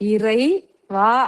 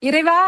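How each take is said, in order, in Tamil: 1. இது பகுதிகளுக்கு இடையே இடைவெளி விட்டுப் பிரித்து சொல்லப்படுகிறது. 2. இது ஒரே தொடர்ச்சியான சொல்லாக சொல்லப்படுகிறது. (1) "அப்படியே பிரிச்சு" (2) "ஒரு வார்த்தை மாதிரி இருக்கு"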